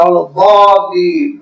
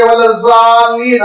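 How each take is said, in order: First: ولا الضالین with ض as a heavy, emphatic d, "daalleen"; slow Arabic ولا الضالین, deep emphatic d instead of z; Arabic pronunciation. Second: ولا الضالین with ض said as a plain z, "zaalleen"; Urdu pronunciation. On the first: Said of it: "عرب کبھی ولا الضالین نہیں کہے گا". (ولا الضالین میں ض کو بھاری دال جیسا، عربی تلفظ میں) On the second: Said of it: "ہم لوگ کہیں گے". (ولا الضالین میں ض کو ز کی طرح، اردو تلفظ میں) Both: Shown as a demonstration.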